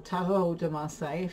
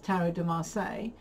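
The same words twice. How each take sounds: First: The name is said with French-style pronunciation. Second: The name is said with English-style pronunciation.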